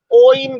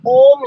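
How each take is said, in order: First: ओइम said with two vowels, o then i; teacher showing the wrong way, ओइम; wrong pronunciation. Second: ओम said as one clean vowel, no i sound; teacher giving the right form, ओम; correct pronunciation. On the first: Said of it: "ओइम गलत है". (ओइम, गलत उच्चारण दिखाते हुए) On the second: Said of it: "ओम ही होगा". (ओम, सही उच्चारण दिखाते हुए) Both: Shown as a demonstration.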